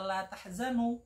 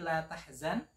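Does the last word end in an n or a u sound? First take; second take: u; n. First: The word ends with an added u vowel. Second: The word ends on a bare n sound. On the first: You are not sad. The speaker calls it wrong. "Kalau dibaca la tahzanu" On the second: Do not be sad. The speaker calls it right. "seharusnya itu dijazmkan, disukunkan nunnya"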